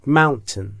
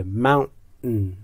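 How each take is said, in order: First: ماونتین with a clear plain t, "moun-ten"; t sound instead. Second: ماونتین said slowly with the t swallowed through the nose; nasal t. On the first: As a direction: say ماونتین with a simple t. (ماونتین با تی ساده) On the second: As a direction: let the t in ماونتین melt into a nasal stop. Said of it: "اون تی حالت تو دماغی داره". (تی تو دماغی در ماونتین) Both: Shown as a demonstration.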